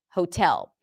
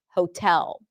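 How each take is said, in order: First: The first vowel is a long 'oh' sound. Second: The first vowel is a long 'oh' sound.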